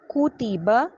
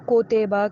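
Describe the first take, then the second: First: The first vowel is a clear 'oo' sound. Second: The first vowel is an open 'oh' sound. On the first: The speaker calls it right. "काफ पेश कू, यू का sound" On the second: The speaker calls it wrong. "इसको कोतेबा करके नहीं पढ़िएगा"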